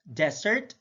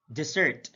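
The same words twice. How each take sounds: First: DESert, open DESS, rising; careful demo of DESert; stress on first syllable. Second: DeSERT, falling on SERT; careful demo of deSERT; stress on second syllable. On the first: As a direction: hit the DES in "desert". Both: Shown as a demonstration. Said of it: "stress is the verbal emphasis used".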